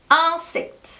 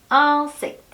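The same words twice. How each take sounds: Both takes have the same delivery.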